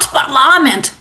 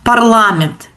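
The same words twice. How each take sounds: First: It is pronounced with an English-style pronunciation. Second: It is pronounced with a Russian-style pronunciation. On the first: "not Parliament" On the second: "In Ukraine, in Russian, they say Parliament"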